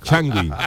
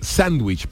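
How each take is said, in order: First: It is said with an Andalusian Spanish pronunciation. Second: It is said close to the English pronunciation. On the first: "españolizarlo y andaluzarlo" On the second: "Qué bien lo pronuncia"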